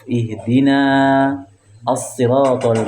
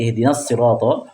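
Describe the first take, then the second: First: Ihdina ends with a long, drawn-out vowel. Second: Ihdina runs straight on with a short vowel. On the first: The reader pauses after ihdina. "Dibaca panjang kalau qaf" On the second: The reader does not pause after ihdina. "tidak dibaca panjang ketika wasol, disambung"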